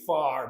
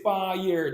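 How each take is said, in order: First: The vowel is flattened into one long sound. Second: The vowel is a full two-part glide. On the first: "they say far" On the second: "They do not say fire"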